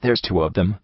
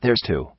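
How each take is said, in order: First: Soft despairing moan, rising at the end. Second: Softer, falling despairing moan. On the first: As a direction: moan it, a touch of disbelief. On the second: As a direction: let it sink in defeat. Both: A narrator's reading. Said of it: "the blue buck moaned in despair".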